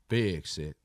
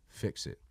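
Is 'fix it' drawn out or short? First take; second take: drawn out; short. First: The words are stretched out with heavy emphasis. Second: The words are said short and plain.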